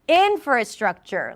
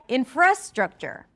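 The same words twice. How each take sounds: First: The stress is on the first syllable. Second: The stress is on the second syllable. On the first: The speaker calls it right. "In is the primary stress" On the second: The speaker calls it wrong. "If you were to say fra, then it would sound like infrastructure"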